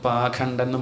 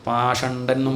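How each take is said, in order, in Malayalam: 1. ഈ വാക്ക് kh ശബ്ദത്തോടെയാണ് പറയുന്നത്. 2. ഈ വാക്ക് sh ശബ്ദത്തോടെയാണ് പറയുന്നത്. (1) "ഖ ഷ അത് രണ്ട് തരത്തിലും പറയും" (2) "ഖ ഷ അത് രണ്ട് തരത്തിലും പറയും"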